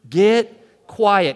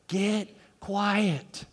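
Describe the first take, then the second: First: The phrase is said at normal loudness. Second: The phrase is said softly and quietly. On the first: "Can you say it with me?" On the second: "Now say it in your quiet voice"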